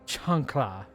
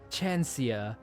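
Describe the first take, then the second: First: It is said with an 'l' sound before the end. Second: It is said with an 'ee' sound before the end. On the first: The speaker calls it right. "I guess that is an L" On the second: The speaker calls it wrong. "I thought that L was an I"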